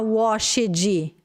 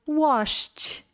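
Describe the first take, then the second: First: The ending is an extra syllable. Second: The ending is a plain t sound. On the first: The speaker calls it wrong. "por mais que a gente escreva com ed, você não vai falar washed" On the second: The speaker calls it right. "Vai falar washed"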